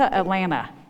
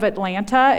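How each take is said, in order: First: The second t sound is dropped. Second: The second t sound is clearly pronounced.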